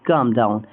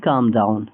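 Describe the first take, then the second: No difference in how they are said.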